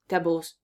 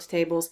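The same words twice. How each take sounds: First: The first vowel is reduced and weak. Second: The first vowel is a full 'ay' sound. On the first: The speaker calls it right. "It's vegetables. Tables" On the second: The speaker calls it wrong. "not tables"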